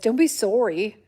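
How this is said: It is said in a silly, dopey put-on voice.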